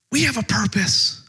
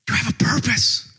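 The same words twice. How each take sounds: First: "We" stressed and falling; turning it to all of us with "We". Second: "you" marked against "we"; pointing at the listener with "you"; stress on you. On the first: Preacher stressing "we" to include the church. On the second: Preacher stressing "you" to the church. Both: Shown as a demonstration.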